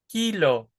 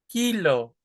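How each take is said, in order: The two takes are said the same way.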